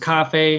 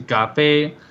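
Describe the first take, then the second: First: Both syllables carry the same first tone. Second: The syllables carry Cantonese tones, not both first tone. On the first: "Unlike Mandarin, which is cafe, it's like one one" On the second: "Cantonese is cafe"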